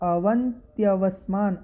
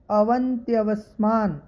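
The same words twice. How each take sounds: The two takes are said the same way.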